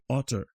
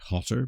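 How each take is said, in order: First: The word begins with no H sound. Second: The word begins with an audible H sound. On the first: "You would just say otter" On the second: "you wouldn't pronounce the H like I did"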